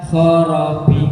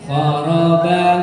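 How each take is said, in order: First: The final b sounds heavy and bassy. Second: The final b sounds light and plain.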